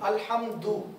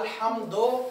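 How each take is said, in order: First: The word ends in a u vowel. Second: The word ends in an o vowel. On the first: The speaker calls it right. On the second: The speaker calls it wrong.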